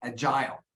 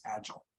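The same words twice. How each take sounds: First: "agile" stressed on the second syllable, a-JYLE; verb-style end stress. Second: "agile" stressed up front, AJ-ul; front-loaded stress. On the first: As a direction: put the weight on the end of "agile". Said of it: "I would typically stress it where you stress it". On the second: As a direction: North American "agile", weak second syllable. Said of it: "patterns of North American English are more front-loaded". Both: Shown as a demonstration.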